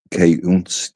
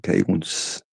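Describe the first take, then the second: First: K unts, the K sounded separately before unts; trying out K unts slowly; sounding out a word. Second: K unts murmured much softer, K then unts; quiet repeat. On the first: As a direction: say K, then unts, spelling out the sound. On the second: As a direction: echo K unts under the breath. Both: Shown as a demonstration. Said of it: "K unts is it?".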